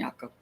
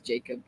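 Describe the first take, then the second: First: The name is said with a Dutch pronunciation. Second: The name is said with an English pronunciation. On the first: Family members who speak Pennsylvania Dutch would call him this. "it's more of a Dutch pronunciation" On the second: Outsiders would call him this. "then everybody else, he's Jacob"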